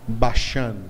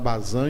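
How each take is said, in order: First: The middle consonant is an sh sound. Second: The middle consonant is a z sound. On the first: This is the original Hebrew form of the name. "em hebraico se fala Bashan" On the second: This is the Portuguese form of the name. "Em hebraico não se fala Bazã"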